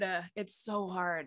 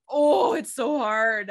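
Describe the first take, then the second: First: Quiet, defeated repeat; resigned murmur. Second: Loud, exasperated cry. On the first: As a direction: let it drop softly, worn out. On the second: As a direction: throw it out loudly in frustration. Exasperated sigh over acting. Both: Real, not acted.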